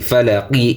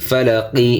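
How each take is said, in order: No difference in how they are said.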